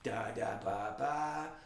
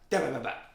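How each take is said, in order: First: The syllables are said slowly. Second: The syllables are said quickly.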